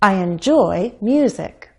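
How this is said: Enjoy and music are stressed equally. The speaker calls it wrong. "But I can't stress enjoy and music equally. It wouldn't sound natural. Let me try"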